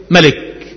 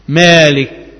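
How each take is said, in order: First: ملك with no long alif, "malik"; short first vowel. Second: مالك with a long first vowel, "maalik"; long alif. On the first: Teacher answers his own question, ملك said short "malik". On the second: Teacher answers his own question, مالك said "MAA-lik". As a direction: hold the "aa" in مالك. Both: Shown as a demonstration. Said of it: "لأن كل ملك مالك".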